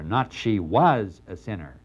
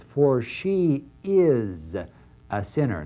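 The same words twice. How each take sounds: First: Said in the usual way. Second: "is" drawn out slow and held; "for she is a sinner" with "is" stretched and weighted; stress on is. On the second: Shown as a demonstration. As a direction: lean on "is", not was.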